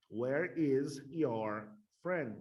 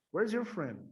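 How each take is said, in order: First: Very slow, each word set apart. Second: Higher, louder, words run together; natural connected pace. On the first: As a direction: spell out the sentence word by word for learners. Teacher models sentence word by word. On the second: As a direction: say it in one quick joined-up phrase. Same sentence again, joined up. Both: Shown as a demonstration.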